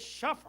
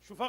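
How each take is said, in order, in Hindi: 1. इसमें a स्वर है: shaf। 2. इसमें u स्वर है: shufa। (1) "ये शफ़ है" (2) "शुफा गलत है"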